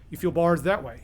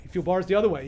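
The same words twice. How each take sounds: First: "that" leaned on with a falling tune; "that" stressed, falling. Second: "other" leaned on with a falling tune; "other" stressed, falling. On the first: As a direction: point the listener one way on "that". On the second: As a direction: swing to the other side on "other". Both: A narrator's reading. Parallel groping in the cell.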